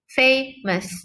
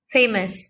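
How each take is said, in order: First: "Famous" lifted higher, each syllable counted out; deliberate syllable-counting "Famous"; read aloud to count syllables. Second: Said in the usual way. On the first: Shown as a demonstration. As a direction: sound out "Famous" slowly, FA-mous. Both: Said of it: "read the word aloud".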